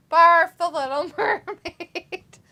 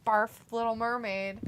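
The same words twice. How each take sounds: First: Loud, high, drawn-out barf; exaggerated, laughing. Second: Said in the usual way. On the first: Real, not acted. Mocking the Little Mermaid to viewers, exaggerated and laughing. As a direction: stretch it out slowly and break into laughter.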